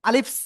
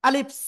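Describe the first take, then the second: The two takes are said the same way.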